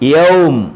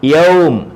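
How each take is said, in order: First: The word stops on a bare final m. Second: The word stops on a bare final m.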